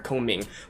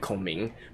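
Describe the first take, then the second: First: It is said with English pronunciation. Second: It is said with Mandarin pronunciation. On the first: It fits smoothly into English speech. The speaker calls it right. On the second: It sounds pretentious and interrupts the flow. The speaker calls it wrong.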